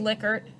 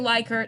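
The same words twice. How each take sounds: First: The first syllable sounds like 'lick'. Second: The first syllable sounds like 'like'. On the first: The speaker calls it right. "say Likert ... because they said lick" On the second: The speaker calls it wrong. "don't say Likert"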